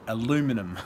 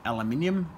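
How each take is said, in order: First: It is said the American way. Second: It is said the non-American way.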